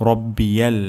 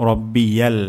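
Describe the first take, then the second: The two takes are said the same way.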